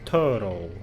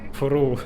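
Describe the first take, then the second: First: It is said with two syllables, 'thur-oh'. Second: It is squeezed into one syllable, like 'through'. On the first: The speaker calls it right. "I think it's thorough, right?" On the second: The speaker calls it wrong. "I used to say it like through, but that's definitely not right"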